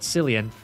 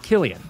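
First: The name begins with a soft S sound. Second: The name begins with a hard K sound. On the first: The speaker calls it wrong. "his name's not Cillian" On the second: The speaker calls it right. "every C in Gaelic is the K sound"

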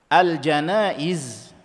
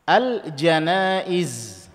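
Both takes have the same delivery.

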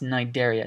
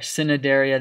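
First: The initial C is silent. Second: The initial C is sounded aloud. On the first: The speaker calls it right. "This is just pronounced Cnidaria. The C is silent" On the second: The speaker calls it wrong. "or Cnidaria"

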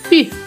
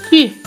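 The two takes are said the same way.

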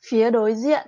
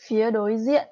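Both takes have the same delivery.

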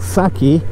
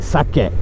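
First: It is said with an English-style pronunciation. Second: It is said with a Japanese-style pronunciation. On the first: The speaker calls it wrong. "what everyone in the West would call sake" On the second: The speaker calls it right. "It's actually pronounced sake, so make sure you pronounce that right"

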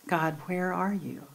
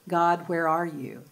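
First: The question sounds soft and searching. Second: The question sounds angry and accusing. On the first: The asker is open and looking for God's presence. "it's the same words, but it's altogether different to ask" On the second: The asker is railing against God in anger. "we ask that question with a fist raised"

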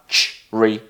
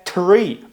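First: The word begins with a ch sound. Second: The word begins with a clear t sound. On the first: The speaker calls it right. "а чрі" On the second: The speaker calls it wrong. "щоб казати не трі"

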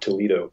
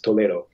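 First: The name is said with an American English pronunciation. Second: The name is said with a Spanish pronunciation. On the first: The speaker calls it wrong. "not Toledo" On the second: The speaker calls it right. "It's Toledo"

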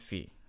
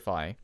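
First: It is said with a Greek pronunciation. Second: It is said with the usual English pronunciation. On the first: "I pronounce them like they actually do in Greece" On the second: "the Greek letter pronounced phi or phi"

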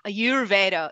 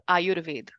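First: The word is said with anglicized pronunciation. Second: The word is said with native Sanskrit pronunciation. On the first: The speaker calls it wrong. "it is not Ayurveda" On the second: The speaker calls it right. "It is Ayurveda"

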